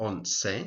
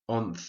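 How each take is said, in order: First: The middle consonant is an 's' sound. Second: The middle consonant is a 'th' sound. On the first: This is the pronunciation in southern Spain and Latin America. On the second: This is the usual pronunciation in most of Spain.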